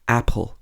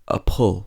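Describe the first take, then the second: First: The stress is on the first syllable. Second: The stress is on the second syllable. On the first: The speaker calls it right. "we stress the first syllable, so we say apple" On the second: The speaker calls it wrong. "we don't say a pull"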